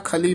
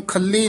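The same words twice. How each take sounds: First: ਖਲੀ said softly, with a single light ਲ; ਖਲੀ ਪੋਲਾ ਉਚਾਰਨ; soft pronunciation. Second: ਖੱਲੀ with a doubled, stressed ਲ; the wrong way, ਖੱਲੀ with a hard geminate ਲ; ਖੱਲੀ ਦਾ ਗਲਤ ਉਚਾਰਨ, ਦੂਹਰਾ ਲ; wrong pronunciation. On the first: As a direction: say ਖਲੀ gently, no doubling. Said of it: "ਖਲੀ ਪੋਲਾ ਹੀ ਉਚਾਰਨ ਕਰਨਾ ਹੈ". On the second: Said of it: "ਇਹਨੂੰ ਖੱਲੀ ਨਹੀਂ ਕਹਿਣਾ ਹੈ". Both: Shown as a demonstration.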